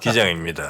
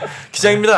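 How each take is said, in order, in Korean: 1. 목소리가 평평하고 피곤하게 들립니다. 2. 목소리가 밝고 활기차게 들립니다. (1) "항상 목소리가 피곤해 보이세요" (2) "이렇게 하는 거 한 번도 못 들어보고"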